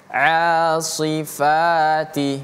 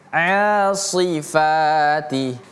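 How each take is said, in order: Both takes have the same delivery.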